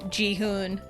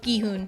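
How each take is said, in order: First: The name starts with a J sound. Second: The name starts with a hard G sound. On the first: The speaker calls it wrong. "it misreads it as Jihoon" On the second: The speaker calls it right. "no, it's Gihoon"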